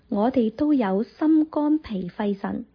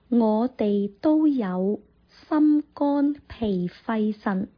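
First: The sentence is spoken at normal conversational speed. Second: The sentence is spoken slowly and carefully.

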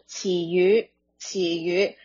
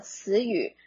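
First: The word is pronounced in Cantonese. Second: The word is pronounced in Mandarin.

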